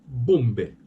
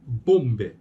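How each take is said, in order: No difference in how they are said.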